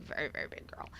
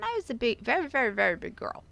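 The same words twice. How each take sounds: First: Hushed aside. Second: VERY repeated high and loud; emphatic. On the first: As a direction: drop to a soft near-whisper. Softer repeat of the same words. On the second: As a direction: lean hard on each "very", higher and louder. Stressing how big she was. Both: Real, not acted.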